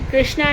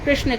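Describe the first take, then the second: First: The name ends with a long 'aa' vowel. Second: The name ends without a long 'aa' vowel. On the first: The speaker calls it wrong. "कृष्णा ना कहें" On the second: The speaker calls it right. "कृष्ण कहें"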